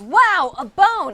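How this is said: It is said in an enthusiastic tone.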